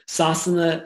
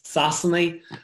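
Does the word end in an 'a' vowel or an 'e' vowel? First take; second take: 'a' vowel; 'e' vowel. First: The final vowel is an 'a' sound. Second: The final vowel is an 'e' sound. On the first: This is the usual form elsewhere. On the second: This is the Mayo form.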